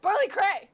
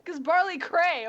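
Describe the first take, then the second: First: Higher, louder hype call; excited shout. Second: Excited. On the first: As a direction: yell it with gleeful hype. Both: Acted. Hyping up the character.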